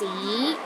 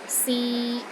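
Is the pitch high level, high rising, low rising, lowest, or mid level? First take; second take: high rising; mid level. First: The pitch rises from low to high. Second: The pitch is steady in the middle. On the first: It means history. "start with a low pitch and rises to a high pitch" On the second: It means to try. "pronounced in the middle of your range and it is steady"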